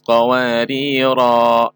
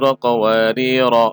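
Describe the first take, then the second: First: The final vowel is long. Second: The final vowel is short. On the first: The reading stops here. "ketika berhenti dibaca" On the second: The reading continues without stopping. "Itu dilanjutkan"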